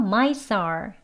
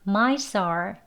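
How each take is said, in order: Both takes have the same delivery.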